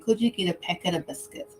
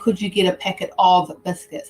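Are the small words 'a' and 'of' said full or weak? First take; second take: weak; full. First: The words 'a' and 'of' have soft, unstressed schwa. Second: The words 'a' and 'of' have full, stressed vowels. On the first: The speaker calls it right. "I'm saying ... that schwa sound is very soft. And it's not stressed" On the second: The speaker calls it wrong. "I'm not saying"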